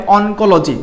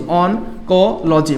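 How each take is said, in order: First: Said in the usual way. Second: "oncology" very slow, broken into separate syllables. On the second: Shown as a demonstration. Teacher repeating a new word for the class, "oncology" slowly syllable by syllable. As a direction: spell out "oncology" slowly by sound, pausing between parts. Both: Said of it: "oncology কি বলা হয়?".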